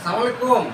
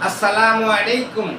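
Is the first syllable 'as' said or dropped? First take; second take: dropped; said. First: The opening 'as' syllable is dropped. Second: The opening 'as' syllable is said in full. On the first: The speaker calls it wrong. "এটা এটা দিবেন না।" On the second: The speaker calls it right. "এটা হলো সালামের সঠিক উচ্চারণ।"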